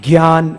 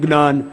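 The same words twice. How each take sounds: First: The word is said in the common everyday way. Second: The word is said in a regional southern-western way. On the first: "हम लोग क्या बोलते हैं आम भाषा में" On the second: "दक्षिण में गुजरात में महाराष्ट्र में इसको बोलते हैं ज्ञान"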